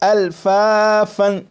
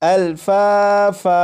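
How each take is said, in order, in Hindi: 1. शब्द n की आवाज़ पर खत्म होता है। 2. शब्द लंबे a स्वर पर खत्म होता है। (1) "ये जो लफ्ज़ है अल्फाफन, असल लफ्ज़ यही है" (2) "जब इसे वक्फ में पढ़ेंगे तो ... इस तरह पढ़ा जाएगा"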